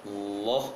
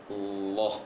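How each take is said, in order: No difference in how they are said.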